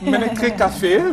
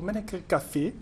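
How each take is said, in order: First: The name is pronounced more clearly. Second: The name is pronounced less clearly. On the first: The speaker calls it right. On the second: The speaker calls it wrong.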